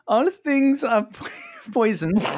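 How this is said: It is said in a put-on Swiss accent.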